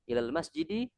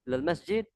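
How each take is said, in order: First: The last word ends with an added vowel. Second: The last word ends on a bare consonant. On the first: This is how learners like us say it. "kalau kita berikan harokat" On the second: This is how native Arabs say it. "mensukunkan huruf terakhir"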